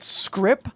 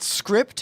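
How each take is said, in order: First: The word ends without a final T sound. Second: The word ends with a clear final T sound. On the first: This is the name used for the currency. "we're calling it" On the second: This is not the name used for the currency. "not script ... I like the T on it"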